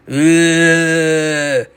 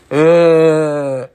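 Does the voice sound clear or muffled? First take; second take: clear; muffled. First: The voice sounds clear and unobstructed. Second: The voice sounds muffled behind a mask. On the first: "one without" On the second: "then one with the mask on"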